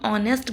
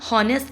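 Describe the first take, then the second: First: The word begins directly with a vowel. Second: The word begins with an h sound. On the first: The speaker calls it right. "हम ऑनेस्ट बोलते हैं" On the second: The speaker calls it wrong. "हम हॉनेस्ट नहीं बोलते"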